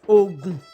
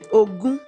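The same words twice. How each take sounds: First: The tones are low then low. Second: The tones are mid then high. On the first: It names a state in Nigeria. "Dodo, Ogun. Ogun is a state" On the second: It means the number twenty. "Remi, Remi, which is twenty"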